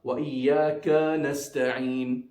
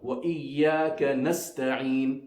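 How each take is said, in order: First: The vowel of 'ka' is drawn out long. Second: The vowel of 'ka' is kept short. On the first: The speaker calls it wrong. "the ka also must not be pulled. So not" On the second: The speaker calls it right.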